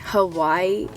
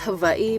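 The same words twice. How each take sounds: First: The middle consonant sounds like a w. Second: The middle consonant sounds like a v. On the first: This is how outsiders say it. "Mainlanders say Hawaii" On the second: This is the local way to say it. "It's actually pronounced Hawaii"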